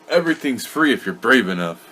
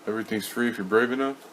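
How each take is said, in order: First: It is said firmly, with authority. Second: It is said tentatively, like a question. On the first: The speaker calls it right. "Say it with authority like you did last night" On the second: The speaker calls it wrong. "you said yeah. it with a question"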